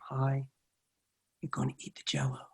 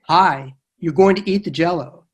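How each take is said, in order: First: It is said gently and lovingly. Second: It is said in a stronger, firmer voice.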